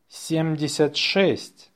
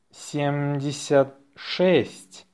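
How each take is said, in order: First: Natural-speed dictation; faster. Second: Slow dictation, words set apart. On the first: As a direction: run the number together briskly. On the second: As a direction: say it slowly for learners. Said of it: "say it slowly". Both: Shown as a demonstration.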